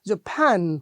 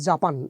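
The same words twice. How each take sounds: First: The stress is on the second syllable. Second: The stress is on the first syllable. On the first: The speaker calls it right. "প্যানটা জোরে বলছি" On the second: The speaker calls it wrong. "বাংলাদেশের আমরা বলছি Japan"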